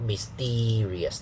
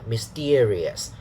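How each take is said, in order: First: The second syllable has a long E vowel. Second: The second syllable has an 'ear' diphthong. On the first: The speaker calls it wrong. "So it's not a long E sound" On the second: The speaker calls it right. "This syllable is not E, but ear"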